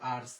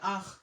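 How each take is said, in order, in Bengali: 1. এটা ইংরেজি উচ্চারণে বলা হয়, r, t, s সহ। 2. এটা ফরাসি উচ্চারণে বলা হয়, নীরব t, s সহ। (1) "ইংলিশ হলে তো হবে আর্টস" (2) "ফরাসি হলে কি হবে"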